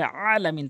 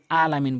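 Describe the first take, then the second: First: আলামিন opening on a squeezed-throat ayn. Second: আলামিন with a plain open "aa"; simple "aalamin" for আলামিন; hamza আলামিন. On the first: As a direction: tighten mid-throat on the first vowel of আলামিন. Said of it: "আইন উচ্চারণ করতে হবে". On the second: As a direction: start আলামিন lightly, no throat squeeze. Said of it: "যারা আলামিন বলেন তাদের নামাজ হবে না". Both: Shown as a demonstration.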